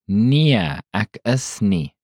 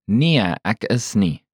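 First: It is said slowly. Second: It is said at normal speed.

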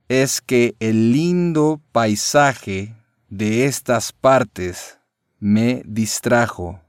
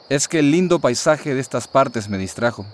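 First: It is said slowly. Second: It is said at normal speed.

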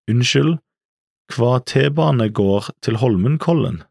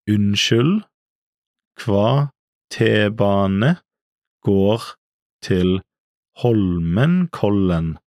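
First: It is said at natural speed. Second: It is said slowly and carefully.

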